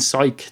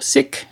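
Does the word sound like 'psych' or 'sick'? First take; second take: psych; sick. First: The vowel sounds like the one in 'psych'. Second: The vowel sounds like the one in 'sick'. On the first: "the pronunciation psych" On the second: "I just saw sick"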